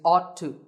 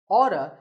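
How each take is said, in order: First: The two words are said fully and separately. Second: The two words blend into one reduced word.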